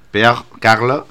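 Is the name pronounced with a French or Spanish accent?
French. The name is pronounced in a French way. The speaker calls it right.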